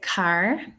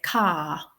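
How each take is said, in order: First: The final R sound is clearly pronounced. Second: The final R sound is dropped entirely. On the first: "I would say car" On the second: "received pronunciation accented person, might say ka"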